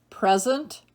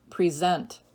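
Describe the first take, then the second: First: PREZ-ent, first syllable stressed. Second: Pree-ZENT, second syllable stressed. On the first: Teacher reading word list to students, present as PREZ-ent. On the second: Teacher giving other pronunciation, present as pree-ZENT. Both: Shown as a demonstration. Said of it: "give you both pronunciations".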